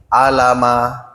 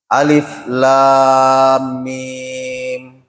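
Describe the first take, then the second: First: The letters are blended into short syllables. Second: Each letter is said by its full name. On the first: The speaker calls it wrong. "Kalau anak yang baru ikrat tiga, nah bacai alama" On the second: The speaker calls it right.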